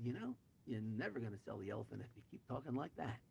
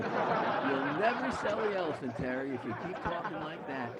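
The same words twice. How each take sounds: First: Said in the usual way. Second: Loud, laughing repeat; real amusement, voice raised; laughing punchline. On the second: Real, not acted. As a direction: crow the punchline through laughter. Repeats punchline amid shared laughter.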